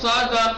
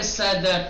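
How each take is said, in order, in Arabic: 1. صوت الـ s ثقيل وعميق، وفيه صفير أقل. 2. صوت الـ s رفيع وخفيف، وفيه صفير.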